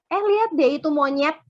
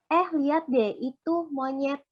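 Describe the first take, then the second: First: Teasing insult with a jab on lihat; mocking insult. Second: Said in the usual way. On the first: Shown as a demonstration. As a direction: say it like you mean him. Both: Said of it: "Beda kan?".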